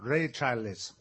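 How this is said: The name is pronounced with Italian sounds. The speaker calls it wrong. "ma è sbagliato. Ray Charles in italiano"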